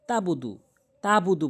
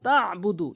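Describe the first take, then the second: First: "তাবুদু" with a simple open ta; missing ayn. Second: "তাবুদু" with ayn from mid-throat; correct ayn. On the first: Teacher showing what people say, "তাবুদু" without ayn. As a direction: say "তাবুদু" with no throat sound. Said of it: "আইন উচ্চারণ করে না". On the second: Teacher giving the correction, "তাবুদু" with throat ayn. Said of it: "হলকের মাঝখান থেকে". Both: Shown as a demonstration.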